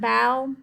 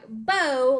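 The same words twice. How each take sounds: First: The vowel rhymes with cow. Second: The vowel rhymes with go. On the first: Bending forward to thank a crowd. "this bow means like to take a bow" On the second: A tied ribbon for hair or a present. "like a bow you put in your hair"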